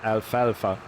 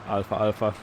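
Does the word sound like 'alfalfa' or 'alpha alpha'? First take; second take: alfalfa; alpha alpha. First: It is said as one word, alfalfa. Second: It is said as alpha twice. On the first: The speaker calls it right. "it's actually alfalfa. There's no two A's in that" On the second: The speaker calls it wrong. "I pronounced it like the Greek letter alpha"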